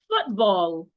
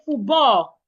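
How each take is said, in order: First: The final l sound is clearly heard. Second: The final l sound is dropped. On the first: The speaker calls it right. "make sure that we can hear the sound of the l" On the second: The speaker calls it wrong. "A lot of people will say"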